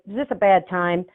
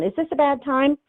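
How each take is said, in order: First: It sounds curt and unfriendly. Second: It sounds warm and friendly.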